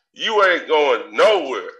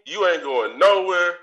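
First: "You ain't going nowhere" said slow and firm, leaning on "nowhere"; stressed threat. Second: Said in the usual way. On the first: Acted. Ranting at the departing co-hosts, slow emphatic threat. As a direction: lay down the threat slowly, hitting "nowhere". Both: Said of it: "I'm fucking livid".

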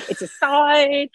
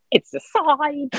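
First: High, awed repeat of the omen; excited exclaim. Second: High, awed cry of revelation; excited exclaim. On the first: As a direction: say it again, pitched up and a bit louder. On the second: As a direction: announce the omen, pitched up. Tree falls, declares omen. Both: Retold or imitated.

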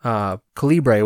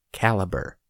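First: Calibre said slowly as KAL-ee-bray, ending in bray; drawn-out Calibre, stress on first syllable, final bray; alternative pronunciation. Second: Caliber said as KAL-uh-ber, like the bullet size; correct pronunciation. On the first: Retold or imitated. Quoting how [name] said the band name: Calibre as KAL-ee-bray. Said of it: "he pronounced it". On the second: Shown as a demonstration. Introducing the band on the podcast: Caliber as KAL-uh-ber. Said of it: "as I've mentioned the name many, many times".

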